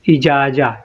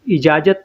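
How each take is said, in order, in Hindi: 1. शब्द का अंत एक खुले स्वर से होता है। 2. शब्द का अंत त की ध्वनि से होता है। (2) "इजाज़त नहीं"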